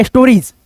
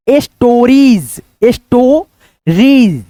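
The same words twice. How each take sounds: First: Said in the usual way. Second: "stories" drawn out slowly as es-to-reez; broken into syllables. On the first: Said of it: "स नहीं पढ़ेगा". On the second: Shown as a demonstration. Teacher sounds out stories for learners, slow syllables. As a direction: split "stories" with long vowels and gaps. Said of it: "इसको क्या पढ़ेंगे".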